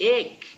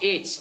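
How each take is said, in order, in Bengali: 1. শব্দটি 'k' ধ্বনি দিয়ে শেষ হয়। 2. শব্দটি 'ch' ধ্বনি দিয়ে শেষ হয়। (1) "it ache like" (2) "It not itch"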